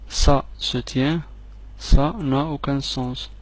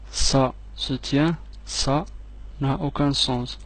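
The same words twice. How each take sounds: The two takes are said the same way.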